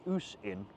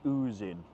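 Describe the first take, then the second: First: The first word ends with a hissing S sound. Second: The first word ends with a buzzing Z sound. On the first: The speaker calls it wrong. "I was pronouncing it wrong" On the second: The speaker calls it right. "it's the Ooze Inn"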